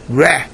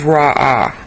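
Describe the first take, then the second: First: The word ends with a short 'eh' vowel. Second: The word ends with an open 'ah' vowel. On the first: The speaker calls it right. "really the right pronunciation is Reh" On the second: The speaker calls it wrong. "I pronounced this as Ra'ah"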